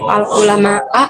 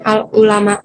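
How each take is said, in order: First: The word ends with an 'a' vowel. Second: The word ends with a 'u' vowel. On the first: The scholars are the ones feared. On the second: The scholars are the ones who fear.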